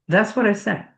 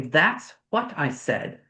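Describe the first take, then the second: First: It is said fast, with the T dropped. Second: Each word is said fully, with the T sounded. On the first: "when we're speaking fast in colloquial" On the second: "We don't say"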